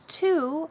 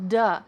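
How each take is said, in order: First: The word is said fully with a clear vowel. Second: The word is reduced to a weak d sound. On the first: "The word to" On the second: "becomes duh"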